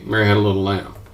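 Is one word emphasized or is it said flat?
flat. No word gets special emphasis.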